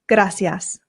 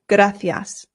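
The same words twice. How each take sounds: First: The c is said with an s sound. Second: The c is said with a th sound. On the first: This is how it is said in Latin America. "the Latin American way" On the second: This is how it is said in Spain. "they pronounce the C's with a th sound"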